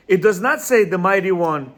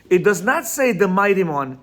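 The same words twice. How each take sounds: The two takes are said the same way.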